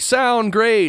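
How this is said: It is yelled loudly and excitedly.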